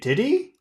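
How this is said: The tag question sounds unsure and questioning. The speaker wants the listener to say what happened. "you're not sure"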